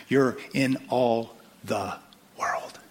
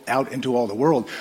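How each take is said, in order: First: You're in all the world, slowed right down, world dropped soft; slow, fading emphasis on world. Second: Said in the usual way. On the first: Acted. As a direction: draw it out, then let world sink to a hush. Repeated line, slowed, fading to quiet.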